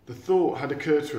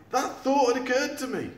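First: Said in the usual way. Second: High, sharp sarcastic retort. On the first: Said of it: "retort-, uh". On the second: Acted. Eric retorting to Sid's obvious advice. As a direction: snap back with dry sarcasm. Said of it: "retorted Eric".

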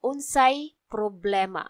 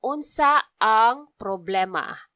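First: "Unsay problema?" with "ang" shortened to a Y; lazy shortcut form; contracted form. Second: "Unsa ang problema?" with "ang" said out in full; full unshortened phrase; full form. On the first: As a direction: run "Unsa ang" together as "Unsay". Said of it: "So we say it like this". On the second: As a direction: say every word, "Unsa ang". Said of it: "It's supposed to be". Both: Shown as a demonstration.

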